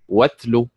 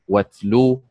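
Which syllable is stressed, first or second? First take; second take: first; second. First: The stress is on the first syllable. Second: The stress is on the second syllable. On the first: The speaker calls it right. "النبر على حركة الواو فتنطق واتلو" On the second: The speaker calls it wrong. "ولا تنطق واتلو"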